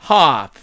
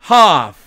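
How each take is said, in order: The two takes are said the same way.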